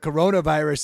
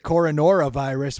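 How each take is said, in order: First: It is said as co-ro-na-virus, the usual form. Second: It is said as co-ro-no-ra-virus, with an extra syllable. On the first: The speaker calls it right. "at least I'm calling it the the coronavirus" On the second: The speaker calls it wrong. "which is literally how I referred to it for the first like month"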